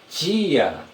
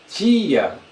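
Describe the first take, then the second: First: The t sounds like a ch sound. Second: The same.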